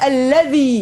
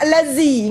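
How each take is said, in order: First: The consonant is 'dh' with tongue between teeth. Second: The consonant is a buzzing 'z' behind the teeth. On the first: The speaker calls it right. "Zal mana-mana?" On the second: The speaker calls it wrong. "bukan allazi"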